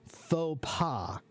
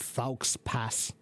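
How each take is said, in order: First: It is said with French pronunciation. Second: It is said following English spelling rules. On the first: The speaker calls it right. "It's pronounced faux pas" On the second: The speaker calls it wrong. "It's not faux pas"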